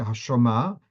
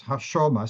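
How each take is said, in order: First: Hashoma stressed on the final ma; wrong final stress. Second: Hashoma stressed on the sho; earlier stress. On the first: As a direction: push the weight onto ma in Hashoma. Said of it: "So you don't say". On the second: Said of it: "the word Shoma is Mil". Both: Shown as a demonstration.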